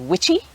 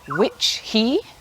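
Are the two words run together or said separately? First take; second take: run together; separately. First: The two words are run together quickly. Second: The two words are said separately and slowly. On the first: "pushed together to say witchy" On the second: "we have"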